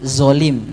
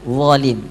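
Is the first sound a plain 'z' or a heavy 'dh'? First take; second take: plain z; heavy dh. First: The first sound is a plain light 'z'. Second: The first sound is a heavy, back-tongued 'dh'. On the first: The speaker calls it wrong. "itu berarti salah tuh" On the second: The speaker calls it right. "Harusnya kan wolim"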